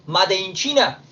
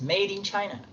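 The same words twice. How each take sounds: First: Said in the usual way. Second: Made como "meid" y China como "chaina"; inglés correcto. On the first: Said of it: "Lo pronuncian así". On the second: Shown as a demonstration. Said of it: "Lo pronuncian así, es Made in China". (Made in China con pronunciación inglesa)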